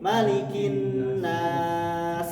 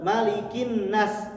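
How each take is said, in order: First: The s sound has breath flowing out audibly. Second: The s sound is cut short with held breath. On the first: The speaker calls it right. "Harus ada eh, napasnya mengalir, bukan tertahan" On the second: The speaker calls it wrong.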